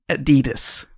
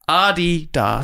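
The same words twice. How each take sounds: First: It is said the American way. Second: It is said the German way, first syllable stressed. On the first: The speaker calls it wrong. "in America they say Adidas" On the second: The speaker calls it right. "it's pronounced Adidas. With, with emphasis on the first syllable"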